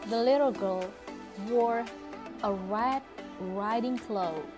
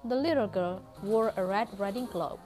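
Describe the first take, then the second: First: The words 'a red riding cloak' are slowed down. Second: The words 'a red riding cloak' keep normal speed. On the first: "Miss juga menurunkan kecepatan ketika mengucapkan kata a red riding cloak" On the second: "Berbeda ketika kalian membacanya seperti ini"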